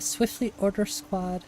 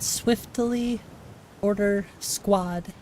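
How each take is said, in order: First: It is said fast. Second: It is said slowly.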